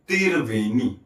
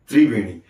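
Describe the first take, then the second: First: The opening 'tr' is split into 'tir'. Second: The opening 'tr' is said as one cluster. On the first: "त्रिवेणी को छत्तीसगढ़ में क्या कहा जाता है?" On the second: "यदि किसी का नाम है त्रिवेणी"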